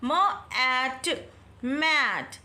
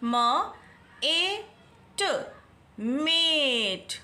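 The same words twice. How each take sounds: First: Drawn-out sounding of मैट; मैट with open ae; slow phonics. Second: Very slow मेट with letter-name ए; मेट as "mate", long ay vowel; magic e long vowel. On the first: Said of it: "आप इसको क्या read करेंगे". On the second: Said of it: "किस तरह से करेंगे आप". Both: Shown as a demonstration.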